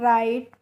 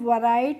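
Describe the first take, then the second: First: The word begins with an r sound. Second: The word begins with a w sound. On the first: The speaker calls it right. "राइट पढ़ते हैं" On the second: The speaker calls it wrong. "वराइट नहीं पढ़ते हैं"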